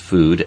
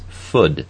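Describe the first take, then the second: First: The vowel is long, as in 'moon'. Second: The vowel is short, rhyming with 'good'. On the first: This is the usual way of saying it. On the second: This is a less common way of saying it.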